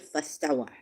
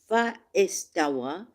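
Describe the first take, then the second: First: Fa is merged into one word with istawa. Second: Fa and istawa are said as separate words.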